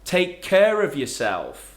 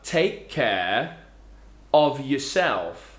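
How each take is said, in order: First: An r sound links 'care' and 'of'. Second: No r sound links 'care' and 'of'. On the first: "this r sound appears from nowhere in the middle of the phrase" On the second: "So we have take care of yourself"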